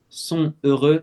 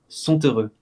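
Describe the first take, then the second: First: The t of sont is silent. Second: A t sound links sont into heureux. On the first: "on dirait sans liaison" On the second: "Avec la liaison"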